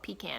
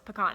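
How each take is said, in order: First: It is said the way the Carolinas friend says it. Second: It is said the way Texans say it. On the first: Someone else says it this way. The speaker calls it wrong. "he always tells me it's called pecan" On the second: This is how the speaker's home region says it. The speaker calls it right. "no, it's pecan. I'm from Texas"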